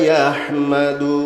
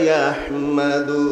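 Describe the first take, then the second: The two takes are said the same way.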